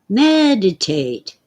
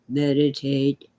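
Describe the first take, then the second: First: The first syllable is higher and louder. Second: The first syllable is not stressed. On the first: The speaker calls it right. "A little higher pitch, a little louder on the me part of meditate" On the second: The speaker calls it wrong. "we don't say meditate"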